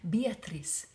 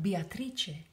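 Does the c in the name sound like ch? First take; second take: no; yes. First: The c is not pronounced as ch. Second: The c is pronounced as a ch sound. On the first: The speaker calls it wrong. "Sometimes people say Beatrice. She gets annoyed" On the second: The speaker calls it right. "if you see the C in front of the I and the E, it's make a ch sound"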